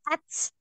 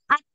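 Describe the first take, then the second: First: The final consonant ends with a hissing sound. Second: The final consonant stops, with only breath released. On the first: The speaker calls it wrong. "Jadi bukan ats" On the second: The speaker calls it right. "Jadi yang ngalir nafasnya"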